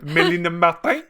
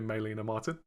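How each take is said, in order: First: The name is said with a French accent. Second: The name is said with an English accent.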